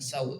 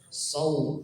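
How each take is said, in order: First: The s sound is plain and light. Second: The s sound is emphatic and heavy. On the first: The speaker calls it wrong. "sering terbaca sin watawasaw bil. Nah ini bukan saw" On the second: The speaker calls it right. "saw huruf shad"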